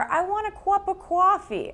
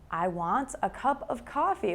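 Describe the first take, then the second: First: It is said in a New York accent. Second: It is said in a standard American accent.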